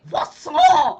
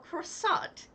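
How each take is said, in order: First: It is said with a French accent. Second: It is said flatly with an American accent. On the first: The speaker calls it right. "You say croissant" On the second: The speaker calls it wrong. "Like saying it flat like an American would"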